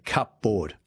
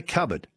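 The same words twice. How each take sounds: First: Cupboard said as "cup-board"; spelling pronunciation. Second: Said in the usual way. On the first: Shown as a demonstration. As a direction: say cupboard as two full words, cup and board. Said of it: "We don't say cupboard". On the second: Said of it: "We say cupboard".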